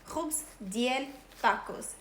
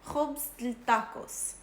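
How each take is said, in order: First: The middle word is said in full. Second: The middle word is said shortened. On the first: "you would say khubz diel tacos" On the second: "I won't say the full word of diel. I'll say khubz del tacos"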